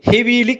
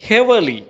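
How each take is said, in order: First: The second vowel is a long 'ee'. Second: The second vowel is short and reduced. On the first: The speaker calls it wrong. "අපි කියවන්නේ හෙවීලි කියලා" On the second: The speaker calls it right. "වඩාත් නිවැරදි විදිහට කියවනවා නම්"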